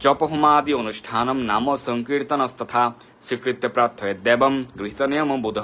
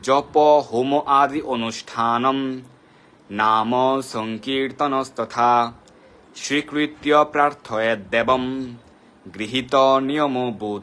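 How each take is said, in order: First: The mantra is recited at a normal, quicker pace. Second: The mantra is recited slowly and deliberately.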